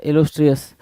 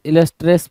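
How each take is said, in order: First: Said in the usual way. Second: इलस्ट्रियस squashed to "illus-tres"; misspelling read out. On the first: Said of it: "इलस्ट्रियस होना चाहिए था". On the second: Shown as a demonstration. Teacher reading the wrong spelling, इलस्ट्रियस as "illus-tres". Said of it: "इलस्ट्रियस बोल रहा है भाई".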